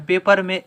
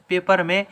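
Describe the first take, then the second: No difference in how they are said.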